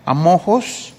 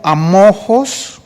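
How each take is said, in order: First: Said in the usual way. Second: "amojos" drawn out very slowly with a clear J sound; spelled out slowly. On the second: Shown as a demonstration. Preacher teaching the Greek word to the congregation, spelling it out slowly. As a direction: stretch out "amojos" syllable by syllable. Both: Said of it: "con J".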